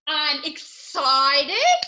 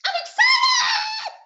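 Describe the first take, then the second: First: Slow, drawn-out excitement; excited, lingering on each syllable. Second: High, loud squeal of excitement; very high-pitched excited shout. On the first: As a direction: stretch out the word excited. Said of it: "speaking of emotions". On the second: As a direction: shriek it with glee, drawn out slowly. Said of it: "we did lots of emotions". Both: Shown as a demonstration.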